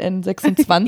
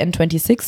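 First: The name is read out in German. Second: The name is read out in English.

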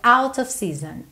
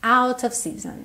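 Both takes have the same delivery.

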